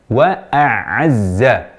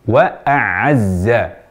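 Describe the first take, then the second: Both takes have the same delivery.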